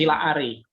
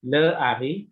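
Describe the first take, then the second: First: The first vowel is a short a. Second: The first vowel is a short e. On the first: The speaker calls it right. "Jadi menjadi la Ari" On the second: The speaker calls it wrong. "itu tidak boleh"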